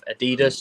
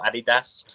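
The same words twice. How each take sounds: First: It is said in his usual accent. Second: It is said in a put-on accent.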